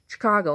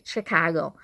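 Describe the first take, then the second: First: "Chicago" as shi-KAH-go; correct pronunciation. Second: "Chicago" with a fuller first syllable, sheh-KAH-go; mock the wrong way of saying "Chicago"; mispronunciation. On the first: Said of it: "not Chicago". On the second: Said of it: "And it's Chicago". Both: Shown as a demonstration.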